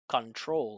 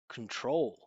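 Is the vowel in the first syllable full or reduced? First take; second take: full; reduced. First: The first syllable has a full, open vowel. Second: The first syllable is a small hum without vowel. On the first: The speaker calls it wrong. "I'm not saying control" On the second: The speaker calls it right. "I'm saying con, con, control"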